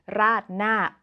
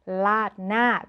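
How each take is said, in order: First: "raat na" starting with an R; R-initial "raat na"; full R pronunciation. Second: "laat na" starting with an L; L-initial casual "laat na"; casual speech pronunciation. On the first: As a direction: say "raat na" with R, not L. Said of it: "the famous noodle dish". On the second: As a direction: say "laat na" with L in place of R. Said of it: "that is the casual speech version". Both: Shown as a demonstration.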